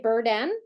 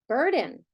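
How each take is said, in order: First: The second syllable has a full short e vowel. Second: The second syllable has a reduced schwa vowel. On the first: The speaker calls it wrong. "do we say burden? No" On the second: The speaker calls it right. "I have to flex that as well to a schwa"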